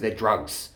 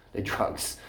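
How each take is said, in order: First: Said in the usual way. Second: Softer whispered repeat. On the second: Real, not acted. Ranting about caffeine to the camera, a whispered repeat. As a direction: drop to a whisper for emphasis. Repeats point, then hushed.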